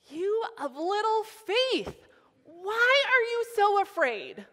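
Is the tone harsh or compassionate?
harsh. It is said in a harsh, negative tone.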